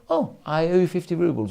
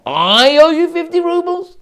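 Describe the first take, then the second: First: "Oh, I owe you fifty rubles," said flat, falling, as a statement; plain admission. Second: "I owe you fifty rubles" high and loud with a long rise on "owe"; disbelieving question tune. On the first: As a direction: state the debt calmly, falling at the end. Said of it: "You could either say". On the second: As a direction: turn it into an incredulous question. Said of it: "You could either say ... or". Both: Shown as a demonstration.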